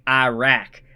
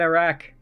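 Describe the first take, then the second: First: Iraq is said with the usual American pronunciation. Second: Iraq is said with a non-American pronunciation. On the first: The speaker calls it wrong. "Growing up in America, you just think Iraq" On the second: The speaker calls it right. "You're supposed to pronounce it Iran and Iraq"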